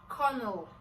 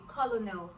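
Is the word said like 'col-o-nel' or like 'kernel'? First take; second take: kernel; col-o-nel. First: It is said like kernel, in two syllables. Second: It is said as spelled, in three syllables. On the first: "it is pronounced as colonel" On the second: "Why didn't they just say colonel?"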